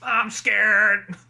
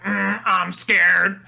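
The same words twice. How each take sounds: First: Drawn-out character impression; Ned from South Park. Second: Slow, drawn-out electrolarynx-style impression; Ned from South Park. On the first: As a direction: repeat the buzzing monotone catchphrase. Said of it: "the way he says that". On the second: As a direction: stretch it out in a buzzing monotone. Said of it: "just the way he says".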